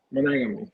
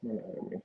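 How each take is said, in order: First: Said in the usual way. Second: Almost whispered, no voice behind "Monogamy."; barely voiced answer. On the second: Real, not acted. Answering the host, "Monogamy." comes out breathy and nearly silent. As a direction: breathe "Monogamy." out with hardly any sound.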